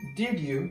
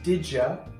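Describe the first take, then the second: First: The d and y sounds stay separate. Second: The d and y blend into a j sound.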